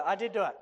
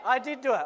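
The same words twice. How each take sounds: First: "do" hit hard and falling; stress on DO. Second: "I" punched, falling after it; stress on I. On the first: Preacher insisting to kids he blew it, stressing "do". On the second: Preacher insisting to kids he blew it, stressing "I". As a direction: lean hard on "I". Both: Real, not acted. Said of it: "I did it".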